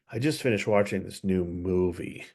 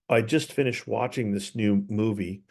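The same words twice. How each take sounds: First: The voice drops lower at the end. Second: The voice stays level at the end.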